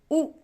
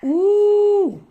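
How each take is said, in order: First: ऊ cut short. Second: ऊ held long, higher and louder. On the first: Teacher contrasting short ऊ with long ऊ. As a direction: say ऊ quick and short. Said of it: "छोटा ऊ". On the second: Teacher contrasting long ऊ with short ऊ. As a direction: stretch the ऊ out. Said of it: "बड़ा ऊ". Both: Shown as a demonstration.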